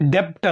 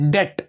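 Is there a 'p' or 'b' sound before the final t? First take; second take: yes; no. First: A p-like sound comes before the t. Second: No sound comes between the vowel and t. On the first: The speaker calls it wrong. "ಡೆಪ್ಟ್ ಅಂದ್ರೆ wrong pronunciation" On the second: The speaker calls it right. "ಬಿ silent ಇರುತ್ತೆ"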